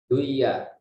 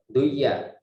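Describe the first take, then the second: The two takes are said the same way.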